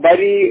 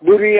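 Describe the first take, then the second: First: The first vowel sounds like 'a' in 'bar'. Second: The first vowel sounds like 'u' in 'put'. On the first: "பரி புரி அந்த மாதிரி pronunciation பண்ணுவாங்க, ஆனா கிடையாது" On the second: "பரி புரி அந்த மாதிரி ப்ரொனன்சியேஷன் பண்ணுவாங்க, ஆனா கிடையாது"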